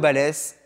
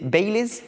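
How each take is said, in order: First: The name is said with French sounds. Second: The name is said with English sounds. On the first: The speaker calls it right. "Classique, comme ça se prononce" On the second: The speaker calls it wrong. "Si c'est Baileys, par contre, ça me plaira pas"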